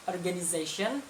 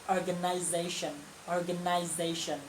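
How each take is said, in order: First: Organization with an American ize, rising at the end; American pronunciation. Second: Organization said the British way, slower on the repeat; British pronunciation. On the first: Teacher demos organization in American English. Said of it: "kalau American itu". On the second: Teacher contrasts organization with the British version. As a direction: say organization like a Brit. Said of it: "kalau yang British". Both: Shown as a demonstration.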